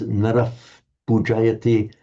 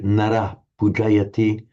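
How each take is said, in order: First: The first word ends in an f-like sound. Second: The first word ends in an h sound. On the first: This is the older Vedic pronunciation. "In Vedic times" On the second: This is the later Sanskrit pronunciation. "Later Sanskrit"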